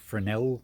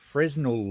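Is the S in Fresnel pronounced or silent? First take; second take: silent; pronounced. First: The S in the middle is silent. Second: The S in the middle is pronounced. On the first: This is the American way of saying it. "I think in America they call it a" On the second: This is the British way of saying it. "I think that's the U K um, pronunciation"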